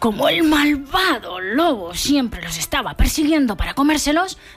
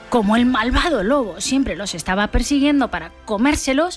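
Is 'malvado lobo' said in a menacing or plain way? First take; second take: menacing; plain. First: The wicked wolf is read in a menacing voice. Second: The wicked wolf is read in a plain voice.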